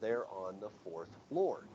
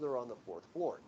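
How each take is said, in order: First: The phrase is pronounced slowly and more carefully. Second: The phrase is pronounced in a casual, relaxed way. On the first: It is a repetition for someone who did not hear. "a little bit more of a careful pronunciation" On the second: It is the first, unprompted answer. "a casual and a more careful pronunciation"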